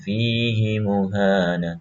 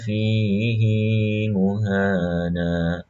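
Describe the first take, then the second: First: The vowel after 'h' in fihi is short. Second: The vowel after 'h' in fihi is lengthened. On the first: This is how the general rule would have it. "Harusnya kan fihi muhana" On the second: This verse is an exception to the general rule. "Tapi ini dibaca dua"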